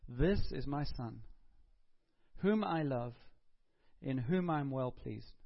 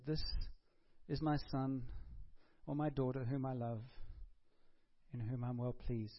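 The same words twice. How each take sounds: First: Slow, solemn proclamation; voice from heaven. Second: Soft, intimate blessing, softer; tender father. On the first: Preacher retelling God's words at the baptism, slow and solemn. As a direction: proclaim it slowly like heaven speaking. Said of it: "the voice out from heaven says". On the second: God blessing each listener personally, soft and tender. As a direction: say it gently like an arm around them. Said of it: "put his arm around us and said". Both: Retold or imitated.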